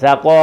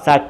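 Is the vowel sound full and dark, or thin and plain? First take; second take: Full; Thin. First: The vowel is full, dark and rounded. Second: The vowel is thin and plain. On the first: The speaker calls it right. "സകോ full volume" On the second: The speaker calls it wrong. "സക്ക എന്നല്ല പറയേണ്ടത്"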